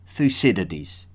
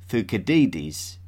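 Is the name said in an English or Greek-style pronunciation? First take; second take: English; Greek. First: The name is said with the popular English pronunciation. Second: The name is said with a Greek-style pronunciation. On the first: "the more popular English pronunciation" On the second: "I will refrain from calling"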